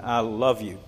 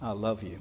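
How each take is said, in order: First: "love" stressed, gentle and falling; fatherly "I love you"; tender I love you. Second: Much softer, falling on "love"; almost a murmur; tender quiet repeat of "I love you"; hushed I love you. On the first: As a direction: say it to your child. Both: Shown as a demonstration. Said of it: "to say often to our children".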